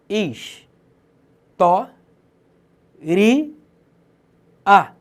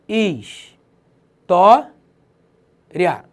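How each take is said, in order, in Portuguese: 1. A terminação é dividida em 'ri' e 'a'. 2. A terminação 'ria' é pronunciada como uma sílaba. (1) "eu posso encarar tais paroxítonas terminadas em ditongo crescente como proparoxítonas" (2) "Paroxítona terminada em ditongo"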